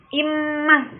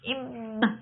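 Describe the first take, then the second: First: The nasal sound comes through clearly and openly. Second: The nasal sound is muffled with the nose blocked. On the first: "immah jelas ya" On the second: "Coba kita tutup hidungnya. ... menjadi tidak jelas ya"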